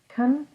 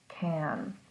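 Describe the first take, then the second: First: The vowel is reduced to a weak, quick sound. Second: The vowel is full and clearly pronounced. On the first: "Can sometimes is pronounced as kun" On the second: "in that full form of can"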